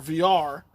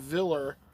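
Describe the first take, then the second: First: The L in the name is silent. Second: The L in the name is pronounced. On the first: The speaker calls it right. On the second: The speaker calls it wrong.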